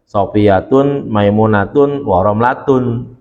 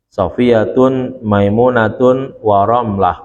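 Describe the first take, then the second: First: The last name ends in 'atun' with nunation. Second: The last name ends in 'ah' without nunation. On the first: It follows the regular grammatical pattern. "mestinya begitu" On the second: The verse's meter requires dropping the nunation. "tidak menggunakan tanwin"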